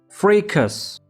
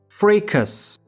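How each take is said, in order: First: It is said with an American English pronunciation. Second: The same.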